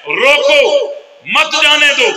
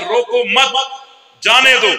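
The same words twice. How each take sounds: First: "रोको" alone, pause, then "मत जाने दो" in one go; pause after रोको. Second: "रोको मत" together, a clear pause, then "जाने दो"; pause after मत. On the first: Reader misreading the teacher's note, pause after रोको. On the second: Student insisting what the note says, pause after मत. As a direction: join मत to रोको, then stop before जाने दो. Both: Shown as a demonstration. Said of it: "वक़्फ़ को आगे पीछे करने से माना बदल जाता है".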